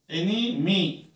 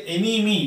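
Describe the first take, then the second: First: "एनिमी" drawn out slowly as एनि-मी; syllable breakdown. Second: Said in the usual way. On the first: Shown as a demonstration. Teacher breaking a word up for learners, slow split "एनिमी". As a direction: say "एनिमी" slowly, pausing before the last syllable. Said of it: "N E M वाई मी". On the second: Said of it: "how many syllables are there".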